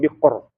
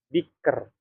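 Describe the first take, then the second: First: The r is thick, with a darker vowel. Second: The r is thin, with a lighter vowel. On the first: The speaker calls it wrong. "bukan bikor" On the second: The speaker calls it right. "tapi siher, biker ya"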